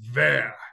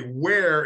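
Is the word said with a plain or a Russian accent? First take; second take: Russian; plain. First: It is said with a Russian v sound. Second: It is said with a plain English w sound.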